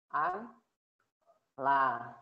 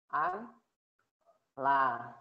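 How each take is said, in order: First: The n and l are said separately. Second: The same.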